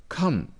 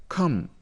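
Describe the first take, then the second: Both takes have the same delivery.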